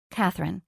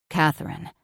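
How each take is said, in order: First: Said in the usual way. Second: A lightly lowered, husky man's voice saying "Catherine"; hoarse and throaty. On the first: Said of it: "Catherine, the flight attendant". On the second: A narrator's reading. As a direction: breathe "Catherine" out rough and low. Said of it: "his voice hoarse and throaty".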